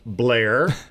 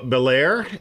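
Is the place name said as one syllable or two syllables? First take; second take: one syllable; two syllables. First: The name is squeezed into a single syllable. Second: The name is said with two full syllables.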